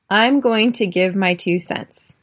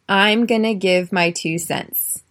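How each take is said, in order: First: 'Going to' is said in full, unreduced. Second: 'Going to' is reduced to 'gonna'.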